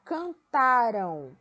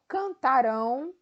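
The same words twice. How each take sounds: First: Cantaram slow with stress on ta, ending in an unstressed ram; can-TA-ram, lean on ta. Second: Cantarão loud, stress on the nasal rão at the end; canta-RÃO, punch the last syllable; cantarão, final nasal stressed. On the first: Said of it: "É o tá". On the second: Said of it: "cantaram e cantarão". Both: Shown as a demonstration.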